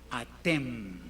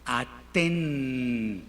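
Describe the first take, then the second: First: "atem" slowly, closing the lips on a final m. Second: "Aten" ending on a clear n, drawn out. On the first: Teacher contrasting "atem" for the students. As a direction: end "atem" on m, not n. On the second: Teacher modelling "Aten" for the students. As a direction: end "Aten" on n, not m. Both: Shown as a demonstration. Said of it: "una pequeña sutileza en la pronunciación".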